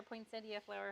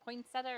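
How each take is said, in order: First: "poinsettia" with an ee-uh ending; pronunciation variant. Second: "poinsettia" ending in plain -uh, no ee; pronunciation variant. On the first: Teacher offering the other option, saying "poinsettia" as poin-SET-ee-uh. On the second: Teacher unsure of the proper way, saying "poinsettia" as poin-SET-uh. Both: Shown as a demonstration. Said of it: "however you say it".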